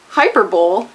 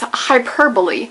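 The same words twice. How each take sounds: First: The word ends sounding like 'bowl'. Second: The word ends sounding like 'bully'. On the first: The speaker calls it wrong. "The cousin of the Super Bowl is the hyperbole. No, it's not" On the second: The speaker calls it right. "It's hyperbole"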